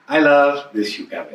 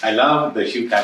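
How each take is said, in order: First: It is said in a natural, normal voice. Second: It is said in a flat robotic voice.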